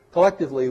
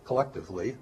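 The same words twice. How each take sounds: First: Collectively punched high and loud, falling; stress on collectively. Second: Said in the usual way. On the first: Shown as a demonstration. Judging humanity as a race, collectively punched loud. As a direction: hit the word collectively hard. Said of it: "Uh, collectively".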